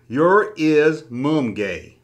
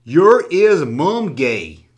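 First: Reads it again, word by word; slowly tries the line once more; slow careful reread. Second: Reads each word slowly, like sounding it out; slowly sounding out a confusing comment; slow halting reading. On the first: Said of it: "let me try that again". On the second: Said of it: "I'm not the best person in the world when it comes to reading". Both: Shown as a demonstration.

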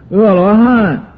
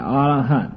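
First: 阿罗汉 with 阿 said as "e"; first reading of 阿. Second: 阿罗汉 with 阿 said as "a"; alternative reading of 阿. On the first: Teacher gives one name of the arhat, 阿 pronounced "e" in 阿罗汉. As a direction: say 阿罗汉 as "e luo han". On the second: Teacher adds the other name of the arhat, 阿 pronounced "a" in 阿罗汉. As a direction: say 阿罗汉 as "a luo han". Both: Shown as a demonstration. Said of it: "也叫阿罗汉".

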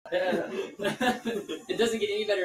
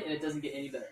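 First: Drawn out, slowly, laughing; slow emphatic repeat. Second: Said in the usual way. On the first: Real, not acted. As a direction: stretch each word for emphasis.

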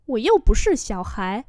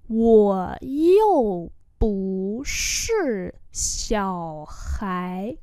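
First: Said in the usual way. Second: Wo you bu shi xiao hai, each syllable apart; slow demonstration. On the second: Shown as a demonstration. Teacher repeats a sentence for learners, very slowly.

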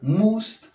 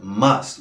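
First: MUST with a Spanish U, like "moost"; wrong pronunciation. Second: MUST with an open short vowel, like "mast"; correct pronunciation. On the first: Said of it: "Recuerda la pronunciación. Not must". (pronunciación incorrecta de "must", con u) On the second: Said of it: "Recuerda la pronunciación". (pronunciación correcta de "must", casi "mast") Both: Shown as a demonstration.

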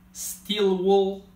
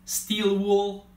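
Both takes have the same delivery.

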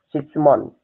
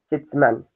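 First: Shitsumon ending in a clear "mon", shi-tsu-MON; corrected shitsumon. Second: Shitsuman said with an "a" in the last syllable, shi-tsu-MAN; the slip shitsuman, ending in "man" not "mon"; mispronounced shitsuman. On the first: Teacher correcting the word for students, careful shitsumon. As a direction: fix it to shitsumon with an "o" at the end. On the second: Teacher giving students a wrong shitsuman by mistake. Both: Shown as a demonstration. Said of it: "Ah, no, esperen".

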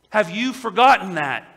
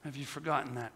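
First: Forgotten hit hard in a louder, ringing challenge. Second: Forgotten said much softer and lower after a long pause; quiet echo. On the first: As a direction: fling the question out loud at the congregation. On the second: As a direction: let the question sink in, almost hushed. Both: Real, not acted.

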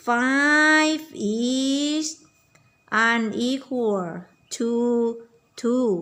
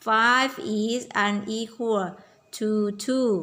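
First: Teacher's slow model for repeating; model sentence. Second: "five is unequal to two" said again slowly; slow repeat. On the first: (ครูพูดประโยคช้าๆ เน้นคำว่า "five") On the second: (พูดซ้ำช้าๆ ให้เด็กตาม) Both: Shown as a demonstration. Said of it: "เราจะต้องบอกว่า".

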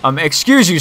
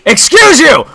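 First: Said in the usual way. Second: High, raised-voice affront; hammed-up indignation; mock indignant. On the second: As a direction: exclaim it in mock outrage. Indignant repeat at intruder.

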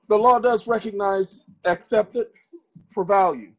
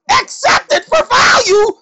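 First: Said in the usual way. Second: High, loud mock doubter's shout; skeptical listener. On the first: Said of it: "same phrase in own voice". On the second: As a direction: cry out the question like a disbelieving outsider. Skeptic voiced in a lecture.

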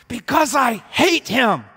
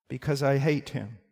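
First: High, shouted, drawn-out rage; loud, hateful outburst; furious hatred. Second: Said in the usual way. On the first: Acted. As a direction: shout it slowly through clenched fists. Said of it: "clenches their fists and say".

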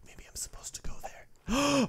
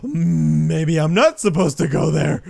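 First: Hushed, whispered pondering. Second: Gasp, then loud, slow exclamation; loud realization. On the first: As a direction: whisper it as a secret thought. Unsure where to go in game. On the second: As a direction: blurt it out loudly, dragging it out. Reverses the whispered guess. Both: Acted.

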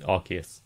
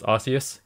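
First: Arceus said with a K sound, AR-kee-us; hard C. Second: Arceus said with an S sound, AR-see-us; soft C. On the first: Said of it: "apparently it is Arceus". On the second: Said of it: "supposed to be pronounced Arceus". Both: Shown as a demonstration.

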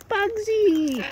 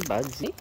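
First: High, loud delighted call of the name; excited greeting. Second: Said in the usual way. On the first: Real, not acted. Feeding birds, greeting Bugsy on arrival, high excited call. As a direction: call out to the bird, thrilled it's back. Greets a returning favourite bird.

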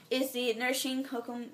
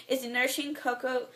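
The two takes are said the same way.

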